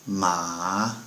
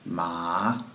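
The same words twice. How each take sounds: The two takes are said the same way.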